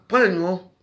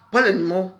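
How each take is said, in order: Both takes have the same delivery.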